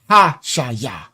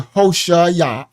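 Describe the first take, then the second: First: The first vowel sounds like 'ah'. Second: The first vowel sounds like 'oh'. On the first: The speaker calls it right. "I'll say Ha-Shaya" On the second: The speaker calls it wrong. "I will try not to say Hoshaya"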